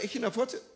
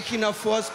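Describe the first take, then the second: First: The last syllable sounds like German 'Furze'. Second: The last syllable sounds like English 'force'. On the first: The speaker calls it wrong. "spreche ich es eigentlich richtig aus? Wie sagt ihr Schweizer, Echiner Furze?" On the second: The speaker calls it right. "Force, ah oh, ja klar, Force"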